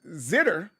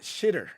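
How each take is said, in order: First: The word begins with a z sound. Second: The word begins with a sh sound.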